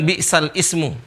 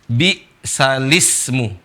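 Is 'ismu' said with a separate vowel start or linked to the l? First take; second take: separate; linked. First: Ismu starts separately, with its own vowel onset. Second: The l joins directly onto the following i. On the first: The speaker calls it wrong. "Bukan bi'sal ismu" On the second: The speaker calls it right. "tapi dibaca ah, bi'salismu. Alif ini dihilangkan"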